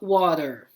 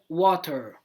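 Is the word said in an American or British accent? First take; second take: American; British. First: American accent, the T is barely pronounced. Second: British accent, the T is clearly pronounced. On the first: "No inglês americano a gente fala water, né? Como se quase a gente não falasse o T" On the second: "No inglês britânico seria water, né? Repara que eu estou falando T"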